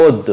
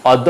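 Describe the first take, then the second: First: অদ্য begun with rounded "o"; closed first vowel in অদ্য; correct pronunciation. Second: অদ্য begun with open "aw"; wrong pronunciation. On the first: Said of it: "উচ্চারণ হবে". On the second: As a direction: say অদ্য as "awd-do". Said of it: "অদ্য হবে না". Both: Shown as a demonstration.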